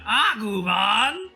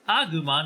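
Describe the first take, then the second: First: It is said in an exaggerated, weird character voice. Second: It is said in an ordinary speaking voice. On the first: "they say it with their weird voice" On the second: "they're not like"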